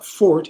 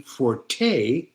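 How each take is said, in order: First: The word has one syllable, ending in t. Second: The word has two syllables, ending in a vowel. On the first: A person's strong point. "is a person's strong point" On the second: Increased loudness in music. "means increased loudness in music"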